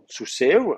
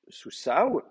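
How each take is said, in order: First: The final vowel sounds like e. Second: The final vowel sounds like a. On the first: "un iode pour une voyelle E" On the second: "pour un kamet"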